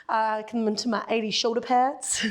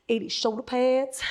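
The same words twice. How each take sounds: First: Put-on playful American accent on "come into my eighty shoulder pads"; a light, jokey American twang. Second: Said in the usual way. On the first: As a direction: slip into a mock American accent, half by accident. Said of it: "Don't know how that got an American accent". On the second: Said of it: "but we'll go for it".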